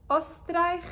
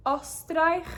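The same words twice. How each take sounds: The two takes are said the same way.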